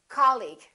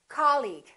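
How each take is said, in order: No difference in how they are said.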